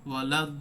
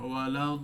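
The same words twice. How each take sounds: First: The consonant is pressed hard and cut off. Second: The consonant is touched softly and held out. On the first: The speaker calls it wrong. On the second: The speaker calls it right.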